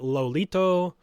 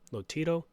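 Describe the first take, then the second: First: The middle consonant is an L sound. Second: The middle consonant is a T sound. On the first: The speaker calls it wrong. "I thought it was Lolito" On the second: The speaker calls it right. "it's Lotito"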